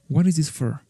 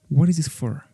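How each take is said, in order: The two takes are said the same way.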